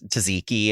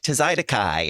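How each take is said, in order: First: The word is said as tzatziki. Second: The word is said as tzaidakai. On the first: The speaker calls it right. "that guy was saying um to tzatziki" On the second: The speaker calls it wrong. "he was like tzaidakai or whatever"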